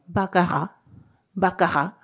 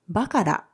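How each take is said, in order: First: It is said with a French-style r sound. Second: It is said with a Japanese-style r sound.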